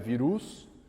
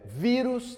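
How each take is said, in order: First: The stress is on the last syllable. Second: The stress is on the first syllable. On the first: The speaker calls it wrong. "não é virus" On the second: The speaker calls it right. "penúltima sílaba, ela é forte, é vírus"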